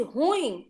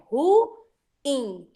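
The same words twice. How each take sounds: First: Ruim squeezed into one syllable, rúim, u and i glided; wrong pronunciation. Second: Ruim in two syllables, ru-ím, stress on the i; correct pronunciation. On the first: Teacher to class showing the wrong one-syllable ruim. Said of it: "o certo não é pronunciar ruim". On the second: Teacher to class giving the correct ruim as ru-ím. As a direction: separate ruim cleanly into ru and ím. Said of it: "Mas não é assim, é". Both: Shown as a demonstration.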